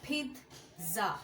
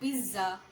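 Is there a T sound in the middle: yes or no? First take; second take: yes; no. First: The middle has a clear T sound. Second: The middle has no T sound. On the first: The speaker calls it right. "এখানে একটা টি sound আছে" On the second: The speaker calls it wrong. "এখানে একটা টি sound আছে যেটা অনেকেই pronounce করে না"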